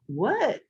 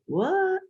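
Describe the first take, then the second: First: Said in the usual way. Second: What in a Philly accent, pitched high; Philly accent, high and drawn. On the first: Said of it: "it sounded more like". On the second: Shown as a demonstration. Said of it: "My light Philly accent probably reared its head".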